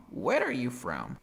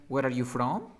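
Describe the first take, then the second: First: "Where are you from" stressed early, falling away on "from"; correct falling intonation. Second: "Where are you from" rising on "from"; wrong rising intonation. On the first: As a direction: open on "Where", let "from" drop. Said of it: "That is the correct intonation". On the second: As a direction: lift "from" like a yes-no question. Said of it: "Ok, no es". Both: Shown as a demonstration.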